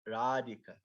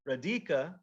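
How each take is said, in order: First: The second syllable is not stressed. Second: The second syllable is stressed. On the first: The speaker calls it right. "we say Radhika" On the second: The speaker calls it wrong. "we don't say Radhika"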